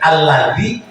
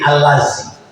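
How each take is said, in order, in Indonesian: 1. Konsonan di tengah itu bunyi 'th' bersuara. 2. Konsonan di tengah itu bunyi 'z' biasa.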